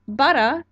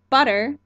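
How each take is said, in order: First: The final r is dropped, ending in ah. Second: The final r sound is clearly pronounced.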